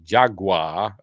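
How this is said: The word is said in an American way.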